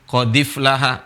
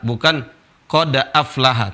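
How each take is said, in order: First: The glottal stop is dropped, its vowel joined backward. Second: The glottal stop is pronounced separately. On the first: The speaker calls it right. "tapi qadif lahal mu'minun" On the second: The speaker calls it wrong.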